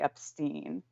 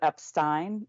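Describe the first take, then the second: First: The last syllable has an 'ee' vowel. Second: The last syllable has an 'eye' vowel. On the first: "instead of" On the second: "he definitely says the Ein"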